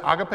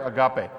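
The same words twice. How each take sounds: First: Agape said AH-guh-pay; stress on first syllable. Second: Agape said uh-GAH-pay; stress on second syllable. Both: Shown as a demonstration. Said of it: "Yeah, it's both".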